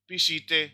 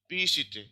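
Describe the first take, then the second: First: The stress is on the second syllable. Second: The stress is on the first syllable. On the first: The speaker calls it wrong. "ऐसे बोलेंगे" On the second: The speaker calls it right. "लेकिन क्या है"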